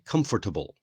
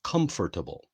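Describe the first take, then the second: First: The word is said in a common learner way. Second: The word is said in a common learner way.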